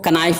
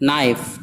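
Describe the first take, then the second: First: The word begins with a sounded k. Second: The word begins directly with an n. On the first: The speaker calls it wrong. "इसको कनाइफ नहीं पढ़ेंगे" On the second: The speaker calls it right. "लिहाजा के नहीं पढ़ा जाएगा।"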